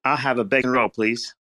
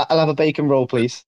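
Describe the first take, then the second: First: Higher, very American attempt at British; American-sounding fake British. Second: Easy, matter-of-fact British model phrase; British accent demo. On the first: Copying the Brit's bacon roll order, very American fake British. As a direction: try British but stay thoroughly American. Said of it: "That, that sounded so, like, American". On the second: Shown as a demonstration. Giving the American a phrase to copy, British accent. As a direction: give a simple British example to copy. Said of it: "like, a fake British accent".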